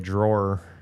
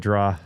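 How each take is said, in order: First: The word ends with an R sound. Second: The word ends with an open AW sound. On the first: "I don't say drawer. Drawer sounds weird to me" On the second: "It's a draw"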